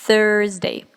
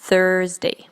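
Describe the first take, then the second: The two takes are said the same way.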